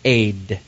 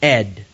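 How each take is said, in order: First: The vowel is long, like in 'aid'. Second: The vowel is short, like in 'Ed'. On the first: The speaker calls it right. "So I pronounce it Aid" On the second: The speaker calls it wrong. "Some people pronounce that Ed"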